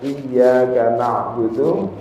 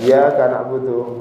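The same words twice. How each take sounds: First: The y sound is held long and doubled. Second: The y sound is short and single. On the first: It means: You alone we worship. The speaker calls it right. "terutama tasydid yang ada di ayat" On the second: The meaning is changed and the prayer is invalid. The speaker calls it wrong. "tak boleh dibaca iyyaka na'budu, berarti ical tasydidnya"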